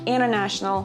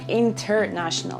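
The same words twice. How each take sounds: First: The T after the N is dropped. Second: The T after the N is clearly pronounced. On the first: The speaker calls it right. "you say international" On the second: The speaker calls it wrong. "you don't say international"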